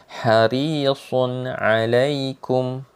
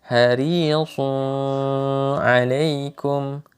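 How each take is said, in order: Both takes have the same delivery.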